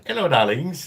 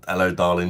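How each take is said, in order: First: Put-on high, loud sing-song hello to old ladies; a cheerful mock-charming greeting; cheeky greeting. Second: Said in the usual way. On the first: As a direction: call out playfully as you ride past. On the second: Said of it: "Couple of".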